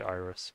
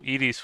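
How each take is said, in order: First: It is said with an English pronunciation. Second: It is said with an ancient Greek pronunciation. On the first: "in English you'd say iris" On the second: "Edis would be the ancient Greek way of also saying uh, rainbow"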